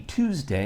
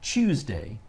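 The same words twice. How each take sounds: First: It begins with a crisp T sound. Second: It begins with a CH sound. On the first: The speaker calls it right. "I want to emphasize the T sound in Tuesday" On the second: The speaker calls it wrong. "replaces the T sound with a C H sound"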